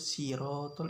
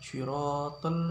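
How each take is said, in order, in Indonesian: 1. Itu dimulai dengan bunyi s biasa. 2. Itu dimulai dengan bunyi s emfatik. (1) "diganti menjadi sin" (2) "lafadznya lafadz shad"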